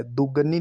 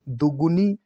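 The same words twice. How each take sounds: First: दुगनी with "ga"; wrong pronunciation. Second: दुगुनी with "gu"; correct pronunciation. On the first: Teacher marking the error, दुगनी with ga. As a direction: say दुगनी as "du-ga-nee". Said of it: "ये गलत है". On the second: Teacher giving the right form, दुगुनी with gu. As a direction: say दुगुनी as "du-gu-nee". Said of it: "ऐसे लिखा जाएगा". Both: Shown as a demonstration.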